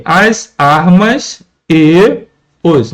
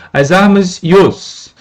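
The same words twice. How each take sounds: First: "as armas e os" slow, word by word; "as ... armas ... e ... os", each word on its own; separated words. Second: "e os" joined as one syllable, "ios"; "As armas e os" linked, ending on a fused "ios"; elision. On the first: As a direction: hold "e" apart from "os" with a pause. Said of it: "entre a vogal E e a vogal O". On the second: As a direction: slowly say "As armas e os", gliding "e" into "os". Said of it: "Essa pronúncia, ios". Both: Shown as a demonstration.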